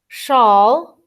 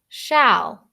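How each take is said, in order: First: The vowel sounds like the one in all. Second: The vowel sounds like the one in al. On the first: The speaker calls it wrong. "instead of saying shawl, like all" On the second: The speaker calls it right. "it says al"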